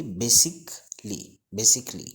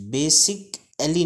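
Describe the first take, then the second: First: Basically broken as "bay-sik... lee", then joined; correct pronunciation. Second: Basically high and loud, "bay-sik-a-lee"; wrong pronunciation. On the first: Teacher repeating the right form for learners, correct pronunciation. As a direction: say basically in three syllables, no "al". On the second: Teacher rejecting the common reading, wrong pronunciation. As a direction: say basically slowly with the "al" sounded. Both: Shown as a demonstration. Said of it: "नहीं पढ़ेंगे".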